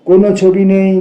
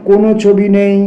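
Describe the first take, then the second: No difference in how they are said.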